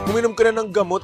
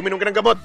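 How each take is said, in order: First: It is said in a sweet, coaxing tone. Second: It is said in a harsh, shouting tone. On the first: The speaker is caring and gently coaxing. The speaker calls it right. "Ganon yung pakyut na pagpapaalaga" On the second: The speaker is angry and scolding. The speaker calls it wrong. "Hindi yung sisigawan mo. ... Hindi ganun"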